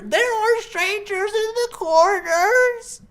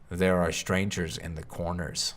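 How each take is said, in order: First: It is said in an old woman's voice. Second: It is said in a deep, low voice.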